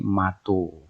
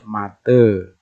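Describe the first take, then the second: First: The word ends in an o vowel. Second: The word ends in an e vowel. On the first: This is how the A-O dialect says it. "yang Aibuka menjadi mato" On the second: This is how the A-E dialect says it. "dialek A E ini biasanya menyebut kata mata menjadi ma, mate"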